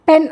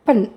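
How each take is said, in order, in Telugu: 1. ఈ అక్షరంలో పూర్తి 'e' అచ్చు ఉంది. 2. ఈ అక్షరంలో తేలికైన, తగ్గిన అచ్చు ఉంది. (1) "పెన్ అనకూడదు" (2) "పన్ అనేది"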